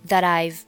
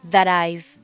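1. 'that' 的 t 连到 'I've' 上。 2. 'that' 的 t 连到 'I've' 上。

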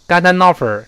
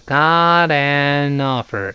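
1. 这句是用力说的，连读很重。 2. 这句是慢慢说的，每个词分开。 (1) "不能用力，不能说got an offer" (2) "如果读慢就是got an offer"

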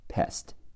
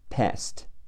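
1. 元音短而扁，是美式的。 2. 元音短而扁，是美式的。

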